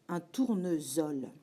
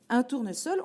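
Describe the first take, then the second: First: The middle consonant is a buzzing z sound. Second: The middle consonant is a hissing s sound. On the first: This is what the spelling rule would predict. The speaker calls it wrong. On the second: This is how the word is really said. The speaker calls it right.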